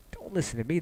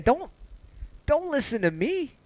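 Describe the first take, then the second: First: Said in the usual way. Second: "don't" pushed high with a long rise, slowed; high pleading don't. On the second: Real, not acted. Streamer begging viewers not to follow him, high rising plea.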